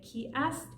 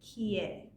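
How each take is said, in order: First: The word ast is said in full. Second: The word ast is reduced to e. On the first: "instead of saying ki ast" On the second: "in speaking, ast is always reduced to e"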